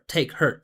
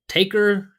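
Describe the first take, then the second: First: The two words are said fully and separately. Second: The two words blend into one reduced word. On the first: The speaker calls it wrong. "Not take her" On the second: The speaker calls it right.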